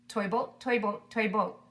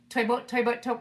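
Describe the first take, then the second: First: It is said fast. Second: It is said very fast.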